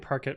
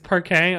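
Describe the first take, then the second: First: The word is said with an English-style ending. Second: The word is said with a French-style ending. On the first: The speaker calls it wrong. "I'm pretty sure I'm pr pronouncing Parquet wrong" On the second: The speaker calls it right. "It does look Franche"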